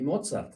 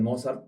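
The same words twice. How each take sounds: First: The z is pronounced strongly, the German way. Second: The z is pronounced softly, the Spanish way. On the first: "pronuncio la Z un poquito más fuerte" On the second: "perfectamente eh, correcto y claro en español"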